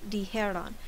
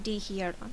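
First: The ending is said as 'jeron', with no extra vowel. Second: The ending is said as 'jieron', with an extra vowel. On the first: The speaker calls it right. "So it's only dijeron" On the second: The speaker calls it wrong. "not dijeron"

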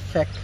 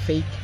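First: The vowel is a short 'eh' sound. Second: The vowel is a long 'ay' sound. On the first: The speaker calls it wrong. "Don't say feck" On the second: The speaker calls it right. "You should be saying fake"

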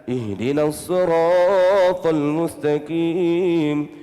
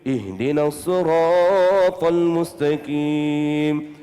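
The two takes are said the same way.

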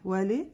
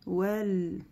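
First: A short vowel is released after the l. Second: The l ends cleanly with no vowel after it. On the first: The speaker calls it wrong. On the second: The speaker calls it right.

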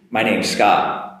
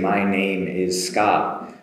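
First: The words 'name is' are said quickly and contracted. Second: The words 'name is' are said slowly and in full. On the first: "if I do it quickly, where name is becomes names" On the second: "if I do it slowly"

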